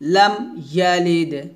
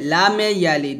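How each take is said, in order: First: The first word ends cleanly on the m sound. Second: The first word ends with an added e vowel. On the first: The speaker calls it right. "বলতে হবে লাম" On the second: The speaker calls it wrong. "আমরা এখন অনেকে বলি লামে লামে ইয়ালিদ ... লামে বলা যাবে না"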